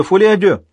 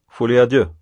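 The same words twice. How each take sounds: First: Фолиа дю called out loud and high; doctor shouts the club's name like a preacher; excited exclamation. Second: Said in the usual way. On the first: Acted. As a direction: proclaim Фолиа дю triumphantly. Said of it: "размахивал руками, как проповедник".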